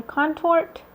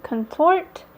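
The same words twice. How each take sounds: First: "contort" tried with a full first vowel, like "KON-tort"; tentative second pronunciation. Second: "contort" tried with a reduced first vowel, like "kun-TORT"; tentative first pronunciation. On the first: Vlogger offering another guess at a shade name, "contort" as KON-tort. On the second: Vlogger puzzling over a shade name, "contort" as kun-TORT. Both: Shown as a demonstration. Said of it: "not sure how to pronounce it".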